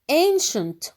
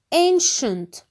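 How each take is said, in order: First: Ancient repeated as "enshant", sh in the middle; sh sound in Ancient. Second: Ancient said as "enshant", sh in the middle; sh sound in ancient. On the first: Teacher repeats Ancient for the class, sh clear. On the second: Teacher models ancient for the class, sh clear. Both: Shown as a demonstration. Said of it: "is pronounced sh".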